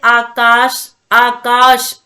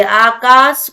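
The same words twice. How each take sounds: First: आकाश with a clear श, as aakaash; correct sh sound. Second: आकाश said with a plain s, as आकास; wrong आकाश, the श softened to स; wrong s sound. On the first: Teacher demonstrates the proper श in आकाश. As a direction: stress the श in आकाश. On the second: Teacher shows the common mistake, आकाश with स. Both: Shown as a demonstration. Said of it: "शा को सा बोल देते हैं".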